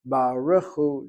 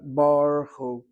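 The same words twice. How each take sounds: First: A short vowel is sounded after the r. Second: No vowel is sounded after the r. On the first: The speaker calls it right. "Read the shva as a shvan na" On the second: The speaker calls it wrong. "not as a shvan nach"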